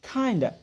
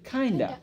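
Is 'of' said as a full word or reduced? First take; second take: reduced; reduced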